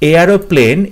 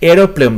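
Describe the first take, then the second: First: The word begins with the sound 'air'. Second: The word begins with a short 'eh' sound. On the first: The speaker calls it wrong. "এই এয়ারোপ্লেন এগুলো হবে না" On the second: The speaker calls it right. "এখানে এয়ার বলা হচ্ছে না, এরোপ্লেন বলা হচ্ছে"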